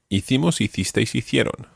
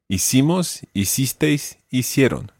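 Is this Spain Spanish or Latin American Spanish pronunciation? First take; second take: Spain Spanish; Latin American. First: It is said with Spain Spanish pronunciation. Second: It is said with Latin American pronunciation.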